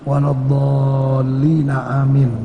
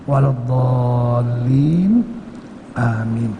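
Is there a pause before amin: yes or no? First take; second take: no; yes. First: The words run together without a pause. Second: There is a pause before amin.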